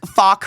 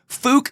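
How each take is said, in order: First: The vowel is open, like in cup. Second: The vowel is rounded, like in book.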